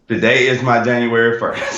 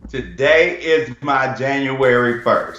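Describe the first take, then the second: First: It is said with little enthusiasm. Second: It is said with more enthusiasm.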